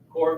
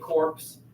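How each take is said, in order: First: The final p and s sounds are silent. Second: The final p and s sounds are pronounced. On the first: The speaker calls it right. "even though that's not how it's spelled" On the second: The speaker calls it wrong. "Don't say corpse. You'll sound undereducated"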